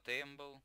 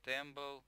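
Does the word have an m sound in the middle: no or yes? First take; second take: yes; yes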